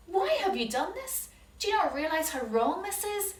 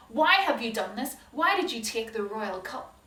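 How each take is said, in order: First: Higher, pointed accusation; accusing servant. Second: Stern, louder accusing demand; hard and cold, make them squirm; harsh voice. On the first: Servant catching the brothers, accusing. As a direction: confront the thieves. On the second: Joseph confronting his brothers, harsh and stern. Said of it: "And in a harsh voice". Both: Acted.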